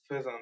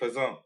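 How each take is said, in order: First: The word is said with an English pronunciation. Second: The word is said with a French pronunciation. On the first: The name is the ordinary English word for a bird. The speaker calls it right. "It's just the name of a bird" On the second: The name is taken to be a French word. The speaker calls it wrong. "Is it a French thing?"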